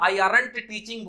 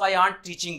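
First: Aren't is not pronounced like the word aunt. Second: Aren't is pronounced like the word aunt. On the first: The speaker calls it wrong. "बोलने में बड़ा खराब लगेगा" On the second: The speaker calls it right. "आर्ट मतलब चाची, वो वाला pronunciation"

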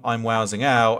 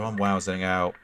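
First: It is said with strong, heavy emphasis. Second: It is said in a negative, downcast tone. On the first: Something amazing is happening. "I do it with sheer, you know, emphasis" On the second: Something bad is happening. "is a bad thing"

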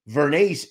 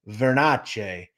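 First: The name has an Americanized pronunciation. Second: The name has an Italian, Sicilian pronunciation. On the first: This is how it is said in the United States. "Vernace is Americanized" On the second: This is how it is said in Sicily. "If you go to Sicily, the pronunciation is Vernace"

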